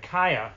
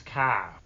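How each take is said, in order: First: "Kaya" in two clear syllables; two-syllable pronunciation. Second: "Ka" as one Appalachian syllable; Appalachian accent. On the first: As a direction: say "Kaya" as KAI-ya, unmerged. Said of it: "they take two syllables and make everything one". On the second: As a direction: merge it into "Ka", East Tennessee style. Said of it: "If you ever heard that accent". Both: Shown as a demonstration.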